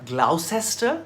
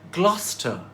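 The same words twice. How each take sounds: First: It does not rhyme with Foster. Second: It rhymes with Foster. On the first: The speaker calls it wrong. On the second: The speaker calls it right. "So Gloucester rhymes with Foster"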